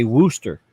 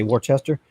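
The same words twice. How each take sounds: First: Worcester said woo-ster, short and clipped; Worcester as the locals say it, woo-ster; Massachusetts way. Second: Worcester said wor-chester with a ch sound; Worcester, with a ch in the middle. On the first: Telling chat how Massachusetts people say it. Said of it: "how Massachusetts people say it". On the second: A streamer contrasting two ways of saying it. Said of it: "but they say Worcester". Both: Shown as a demonstration.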